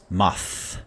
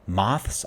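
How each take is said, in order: First: The word ends with a long th sound. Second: The word ends with a clear s sound.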